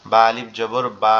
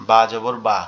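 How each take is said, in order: First: Final "বা" held long and steady; long vowel. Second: Said in the usual way. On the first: Shown as a demonstration. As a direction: spell it out, then stretch the last "বা". Demonstrating long vowel with alif.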